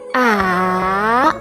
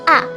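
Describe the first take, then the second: First: The pitch starts low, dips, then rises. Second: The pitch starts high and drops sharply. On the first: "your pitch starts lower, then falls in pitch and then rises again" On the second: "starts out high but drops sharply to the bottom of the tonal range"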